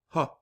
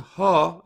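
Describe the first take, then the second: First: The vowel is cut short. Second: The vowel is held long. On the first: "it cuts the length of the syllable down" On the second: "Instead of saying ha"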